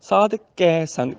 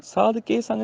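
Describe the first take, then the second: First: ਕੈ said open "kai", slow, in ਸਾਧ ਕੈ ਸੰਗ; correct kai. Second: ਕੇ said "kay", closed e, in ਸਾਧ ਕੇ ਸੰਗ; mistaken ke. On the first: Teacher corrects it, ਕੈ as slow open "kai". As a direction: stretch the open vowel of ਕੈ. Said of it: "ਕੈ ਦਾ ਉਚਾਰਨ ਹੈ". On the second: Teacher shows the mistake, ਕੇ as "ke". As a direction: keep ਕੇ narrow and quick. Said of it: "ਕੇ ਦੀ ਬਜਾਏ ਕੈ". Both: Shown as a demonstration.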